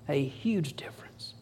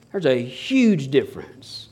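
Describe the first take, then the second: First: Hushed whisper of the repeated line; breathy whispered echo. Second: Said in the usual way. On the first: Real, not acted. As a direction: drop to a whisper to drive it home.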